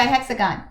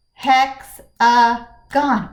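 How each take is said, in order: First: Said in the usual way. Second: "Hexagon" in three slow beats, hex-a-gon; loud "Hexagon", each syllable punched and separated. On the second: Shown as a demonstration. Teacher counting syllables for pupils, "Hexagon" broken in three. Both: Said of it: "Let's count the syllables".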